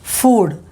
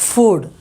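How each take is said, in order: No difference in how they are said.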